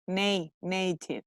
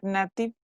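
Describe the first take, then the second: First: "native" broken down, nay first, then whole; correct pronunciation. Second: "native" with a short flat a, NAT-iv; mispronunciation. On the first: Teacher drilling the letter A, correct pronunciation. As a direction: say "native" with a long ay, slowly. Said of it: "How do you pronounce the A". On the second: Teacher showing the mistake to avoid, mispronunciation. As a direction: say the "native" a as in cat. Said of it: "not native". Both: Shown as a demonstration.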